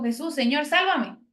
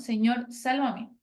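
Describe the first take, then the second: First: Cry for help. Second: Slow prayer. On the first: Retold or imitated. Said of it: "fue y dijo". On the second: Shown as a demonstration. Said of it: "es lo que nosotros debemos de hacer".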